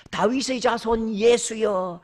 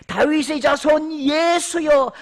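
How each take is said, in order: First: Said in the usual way. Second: Loud, high, slow shout; shouted cry. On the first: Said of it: "이 말은요". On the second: Acted. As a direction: cry out across the crowd. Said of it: "맹인이 외쳐 이르되". (천천히 크게 외치는 소리)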